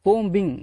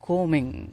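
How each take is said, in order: First: The b sound is pronounced. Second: The b sound is silent. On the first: The speaker calls it wrong. "கோம்பிங் அப்படின்னு பேசக்கூடாது" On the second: The speaker calls it right. "கோமிங் அப்படின்னு தான் பேசணும்"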